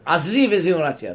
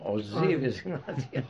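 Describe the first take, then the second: First: The first word begins with an 'a' vowel. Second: The first word begins with an 'o' vowel. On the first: The speaker calls it wrong. "תגיד לו לא" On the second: The speaker calls it right.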